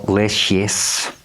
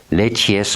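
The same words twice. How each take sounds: First: "Lechies" with a soft sh in the middle; soft SH pronunciation. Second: "Lechies" with a hard tch in the middle; hard CH pronunciation. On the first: Card reader offering another reading of the name, soft sh pronunciation. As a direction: slowly say "Lechies" as LESH-ess. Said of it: "it would be pronounced different". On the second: Card reader trying the demon's name, hard tch pronunciation. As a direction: say "Lechies" as LETCH-ees. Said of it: "also Lechies". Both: Shown as a demonstration.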